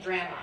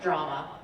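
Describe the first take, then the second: First: "drama" with the a of "cat"; Canadian pronunciation. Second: "drama" with an open ah; American pronunciation. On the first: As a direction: say "drama" as DRAM-uh. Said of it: "in Canada, we say". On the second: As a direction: say "drama" as DRAH-muh. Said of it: "not drama". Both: Shown as a demonstration.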